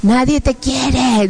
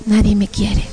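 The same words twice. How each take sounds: First: Very slow, drawn-out taunt; imitating a demon's slow accusation; horrible demon voice. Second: Plain, unembellished repetition of the taunt; resigned echo, acted; own echoing voice. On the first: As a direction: draw the words out like a tormenting demon. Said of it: "unas voces horribles que decían". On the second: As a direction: echo the demon in your own voice. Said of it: "Y yo".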